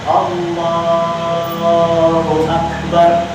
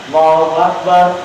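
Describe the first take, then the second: First: The phrase is drawn out with a lengthened vowel. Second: The phrase is said quickly without lengthening. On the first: The words last through the whole movement. The speaker calls it right. "Jadi yang bagus mana?" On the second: The words end before the movement ends. The speaker calls it wrong. "jangan ketika udah ini udah beres baca surat Allahu Akbar, ini masih bergerak ke bawah"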